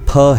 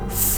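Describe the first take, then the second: First: The sound is an aspirated p. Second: The sound is an f. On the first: This is the Sanskrit sound. The speaker calls it right. "ये फ है" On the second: This is the Urdu sound. The speaker calls it wrong. "फ नहीं"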